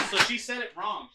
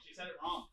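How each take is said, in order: First: Said in the usual way. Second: Unvoiced muttered repeat; whispered. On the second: Real, not acted. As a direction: whisper it to yourself. Repeats it under her breath.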